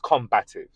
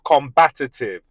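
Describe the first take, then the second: First: The word has no extra syllable, three in all. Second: The word has an extra syllable, four in all. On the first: The speaker calls it right. "It is combative" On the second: The speaker calls it wrong. "There's no such word as combative"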